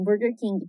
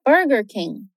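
First: Burger King as BUR-ger KIN-gee, rolled R and extra vowel; Portuguese-style Burger King; Brazilian pronunciation. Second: Burger King as BER-ger KING, retroflex R and no final vowel; English Burger King, R curled back; American English pronunciation. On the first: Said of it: "Normal falar assim". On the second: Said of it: "a pronúncia em inglês é Burger King". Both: Shown as a demonstration.

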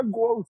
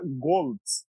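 First: "Goltz" said the Portuguese way, like the word "gols"; pronúncia portuguesa. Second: "Goltz" dito à alemã, com "ts" final; German pronunciation of "Goltz", ending in a ts sound; pronúncia alemã. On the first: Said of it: "Mas no português fica". ("Goltz" pronunciado à portuguesa, como "gols") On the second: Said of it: "no alemão fala". ("Goltz" com pronúncia alemã) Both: Shown as a demonstration.

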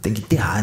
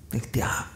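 First: Said in the usual way. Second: Whispered, much softer aside; a hushed, voiceless echo. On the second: Shown as a demonstration. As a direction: breathe the words under the breath. Whispered repeat of burial line.

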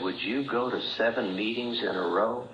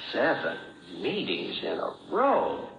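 First: Said in the usual way. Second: "Seven meetings in a row" said slowly, each word weighed; slow, weighty repeat. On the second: Shown as a demonstration. Speaker repeating the old man's challenge, slow and weighty. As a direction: let "Seven" sink in, pause, then slowly finish the phrase.

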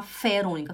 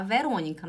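First: "Ferônica" with F in place of V; V turned F. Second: Said in the usual way. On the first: Shown as a demonstration. Teacher showing what nobody would call Verônica, F pronunciation. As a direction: say "Ferônica" with a clear initial F. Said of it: "não vai falar Ferônica". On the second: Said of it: "vai falar Verônica".

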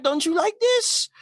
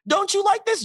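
First: Slow, pleading, high "this" held long; mock whine with "this" stretched; needy question, stress on this. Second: Higher still, "like" punched then falling; mock whine pushing on "like"; needy question, stress on like. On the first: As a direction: lean hard on "this" like a needy partner. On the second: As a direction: hit "like" hard and let it drop. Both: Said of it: "be like".

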